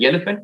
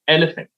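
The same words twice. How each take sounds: First: It is said with a Tamil accent. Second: It is said with an English accent.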